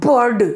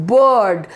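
First: BIRD with a pronounced R before the D; "bird" said as burr-d, R heard; bird with the R sounded. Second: BIRD as a long "buhd", no R; "bird" said slowly as bəəd; bird with silent R. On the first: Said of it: "not, that's bird". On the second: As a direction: drop the R in "bird" and stretch the vowel. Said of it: "उसमें से र जो है वो ह-, हट जाता है". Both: Shown as a demonstration.

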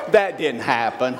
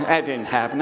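First: Chuckling through it; laughing. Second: Laughing. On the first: Preacher admits the story is invented, laughing. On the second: Preacher repeats the joke is made up, laughing. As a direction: still chuckling, a lift at the end. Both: Real, not acted.

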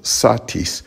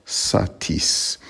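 First: Satis with SA stressed; stress on first syllable. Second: Satis slowly, with TIS stressed; stress on second syllable. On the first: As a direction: hit the SA of satis. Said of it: "stress would be on the first syllable". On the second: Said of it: "not satis". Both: Shown as a demonstration.

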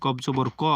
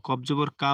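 First: "ক" said thick and rounded, vowel toward o; heavy qaf. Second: "কা" said thin with an open aa vowel; wrong thin qaf. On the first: Teacher shows the correct letter, thick rounded "ক". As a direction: make the final "ক" full and heavy, no open aa. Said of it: "মোটা করে পড়তে হবে". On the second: Teacher demonstrates the mistake to avoid, thin open "কা". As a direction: lighten the final "কা" into plain k plus open aa. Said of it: "ভুল হবে". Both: Shown as a demonstration.

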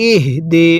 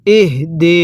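First: ইহদি with a clear breathy হ sounded in the mouth; ইহদি — হা উচ্চারণে মুখে আওয়াজ; correct হা sound. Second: ইহদি with a clear breathy হ sounded in the mouth; ইহদি — হ স্পষ্ট করে; correct হা sound. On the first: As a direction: voice the হ in ইহদি clearly, not a flat ই. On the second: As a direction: give the হ in ইহদি real voice in the mouth. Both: Shown as a demonstration. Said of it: "হাটা উচ্চারণের সময় মুখে আওয়াজ করতে হবে".

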